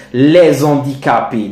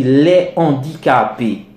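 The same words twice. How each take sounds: First: Les handicapés with a z link; wrong liaison. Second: Les handicapés with no z; les handicapés kept apart, aspirated h; correct, no liaison. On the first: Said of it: "non, on dit les handicapés". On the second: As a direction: say les handicapés as lè-handicapés, a clean break. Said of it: "on dit les handicapés". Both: Shown as a demonstration.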